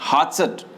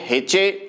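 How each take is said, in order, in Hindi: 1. इस शब्द में 'a' स्वर है और अंत में t है। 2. इस शब्द में 'e' स्वर है और अंत में t नहीं है। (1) "सही प्रोनाउंसिएशन क्या होता है इसका" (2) "कई बोलेंगे हेचे, टी को साइलेंट रखिए"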